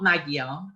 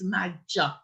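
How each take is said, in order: First: The G and Y are sounded separately. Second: The G and Y merge into a J sound. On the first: The speaker calls it wrong. "So it's not Magyar" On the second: The speaker calls it right. "the G and the Y are conjoined, so they make one sound. And we're confusingly, it's a J"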